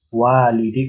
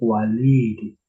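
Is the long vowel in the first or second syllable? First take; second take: first; second. First: The first syllable has the long vowel. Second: The second syllable has the long vowel. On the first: The speaker calls it wrong. "bukan walidi bukan" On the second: The speaker calls it right. "Yang panjang lamnya bukan wa-nya"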